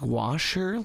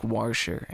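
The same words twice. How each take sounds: First: Said in the usual way. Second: "Warsher" with an r slipped in, said like war-sher; Cincinnati pronunciation. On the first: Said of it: "you know, like". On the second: Retold or imitated. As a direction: imitate the local "Warsher" with a clear r after the a. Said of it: "people tell me that Cincinnati has an accent".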